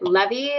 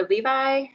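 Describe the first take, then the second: First: Levy said LEV-ee, short e; first name as Levy. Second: Levi said LEE-vye, long first vowel; name as Levi. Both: Shown as a demonstration. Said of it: "is it Levy or Levi".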